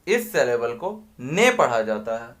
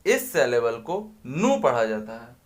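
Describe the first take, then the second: First: ने said clearly as "neh", set apart; pronouncing ne. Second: नू said clearly as "noo" with a rising tune; pronouncing nu. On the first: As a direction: land firmly on ने. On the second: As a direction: stretch नू a little so it stands out. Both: Shown as a demonstration. Teacher reads each syllable aloud for students.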